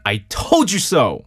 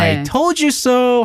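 First: It is said in a stern, scolding tone. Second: It is said teasingly with a raised tone.

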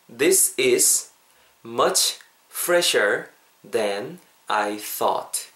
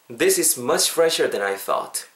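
First: The sentence is spoken slowly and deliberately. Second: The sentence is spoken at natural conversational speed. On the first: "천천히" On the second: "한 번만 더 자연스럽게"

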